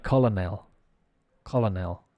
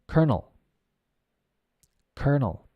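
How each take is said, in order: First: "colonel" read as written, KOL-uh-nel; spelling pronunciation. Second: "colonel" said as KER-nul; correct pronunciation. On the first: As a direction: sound out "colonel" with both Ls, ending in "nel". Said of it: "Looks like colonel". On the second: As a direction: model "colonel" like "kernel", with an R. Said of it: "and the pronunciation is". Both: Shown as a demonstration.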